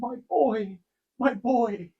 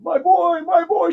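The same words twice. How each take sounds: First: It is said in a soft, gentle tone. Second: It is said in an anguished, sorrowful tone. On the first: She is weeping out of joy. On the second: She is weeping out of sorrow.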